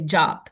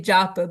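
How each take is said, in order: First: The word ends on a consonant, no vowel. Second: The word ends with a final vowel sound. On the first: This is how many Indians say it. "They drop the last A" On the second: This is how Westerners say it. "We're Westerners, we say japa"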